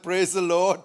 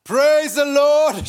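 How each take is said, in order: First: Said in the usual way. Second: High, loud, drawn-out praise; porch shout. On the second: Acted. Poor old lady shouting on her porch, loud. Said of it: "she shouted on the porch".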